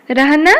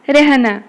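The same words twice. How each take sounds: First: रहना with an open a before h; रहना said ra-ha-na, vowel unchanged; as spelt. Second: रहना said re-h-na; रहना as spoken Hindi rehna, falling; a becomes e. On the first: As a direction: read रहना as ra-ha-na, rising. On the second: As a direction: give रहना an e vowel before h. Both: Shown as a demonstration. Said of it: "एगुड़ाक पिले उच्चारित हब".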